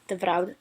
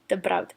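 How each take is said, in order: First: The second word begins with a soft v sound. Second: The second word begins with a hard b sound. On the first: The speaker calls it right. "See how it just sounds a little bit softer, more flowy?" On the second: The speaker calls it wrong.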